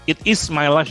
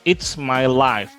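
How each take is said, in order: First: It is said as two full words. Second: It is contracted into one syllable, it's.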